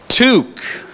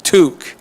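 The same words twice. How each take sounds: First: High, drawn-out Canadian "Toque" with a strong T; Canadian accent. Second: Crisp Canadian "Toque", short and falling; "Toque" the way a Canadian says it; Canadian accent. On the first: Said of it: "What is it?". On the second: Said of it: "Say it with a Canadian accent". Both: Shown as a demonstration.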